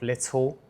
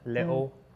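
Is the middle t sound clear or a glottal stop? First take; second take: clear; glottal stop. First: The middle t is pronounced as a clear t. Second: The middle t is replaced by a glottal stop. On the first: "instead of" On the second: "I naturally do it"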